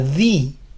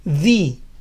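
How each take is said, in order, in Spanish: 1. Termina en una vocal 'ee' larga y clara. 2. Termina en una vocal 'ee' larga y clara.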